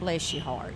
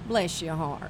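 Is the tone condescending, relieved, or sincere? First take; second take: relieved; condescending. First: It sounds relieved it happened to someone else. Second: It sounds politely contemptuous.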